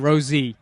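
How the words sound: The letter is said as zee.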